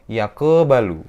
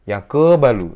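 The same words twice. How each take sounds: The two takes are said the same way.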